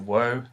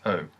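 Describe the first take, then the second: First: It begins with a w sound. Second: It begins directly with the vowel. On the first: This is the formal, textbook pronunciation. "that's the wo that it's technically pronounced as" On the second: This is how it sounds in real speech. "but actually it's pronounced as O"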